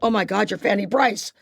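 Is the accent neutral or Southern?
neutral. It is said in a plain, unmarked accent.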